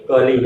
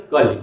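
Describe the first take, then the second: First: कली with a long final ī, "kalee"; long final vowel. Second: कली with a short final i, "kali"; short final vowel. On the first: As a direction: linger on the last vowel of कली. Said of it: "उसके उच्चारण में ठहराव आता है". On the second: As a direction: cut the end of कली short. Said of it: "छोटी की मात्रा लगाई गई तो". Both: Shown as a demonstration.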